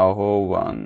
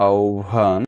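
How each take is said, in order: First: আহ্বান said as "ahoban"; আহ্বান with h and b separate; non-standard pronunciation. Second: আহ্বান said as "aobhan"; আহ্বান with an aspirated bh; standard pronunciation. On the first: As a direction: split আহ্বান into a-ho-ban. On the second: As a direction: blend the middle of আহ্বান into "obh". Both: Shown as a demonstration. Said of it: "কোন উচ্চারণটি প্রমিত নয়".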